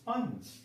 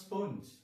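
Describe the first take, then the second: First: The vowel sounds like 'uh', as in spunj. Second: The vowel sounds like 'oh', as in spoanj. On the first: The speaker calls it right. "ഉച്ചരിക്കും സ്പഞ്ച്. It's sponge" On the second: The speaker calls it wrong. "It is not sponge"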